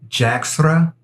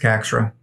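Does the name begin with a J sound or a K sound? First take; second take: J sound; K sound. First: The name begins with a J sound. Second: The name begins with a K sound. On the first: This is the original, correct way to say it. "I believe the correct the correct pronunciation is Jaxra" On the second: This is how it is said in the United States. "but in the States, it's Caxra"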